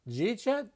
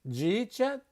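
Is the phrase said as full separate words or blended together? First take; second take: blended; blended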